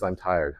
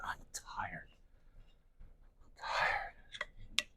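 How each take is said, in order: First: Said in the usual way. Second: "I'm tired" breathed out as a soft unvoiced whisper; weary whisper. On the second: Shown as a demonstration. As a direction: let "I'm tired" sink into a worn-out whisper.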